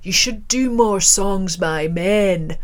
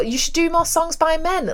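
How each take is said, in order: First: Slow, put-on Scottish accent. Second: Put-on higher, incredulous requote in own accent; indignant echo. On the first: Scottish man advising a female musician, slow Scottish accent. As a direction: draw it out like a Scottish punter. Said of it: "so forgive the accent". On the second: Musician repeating a punter's sexist advice, high-pitched indignation. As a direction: throw the words back in disbelief.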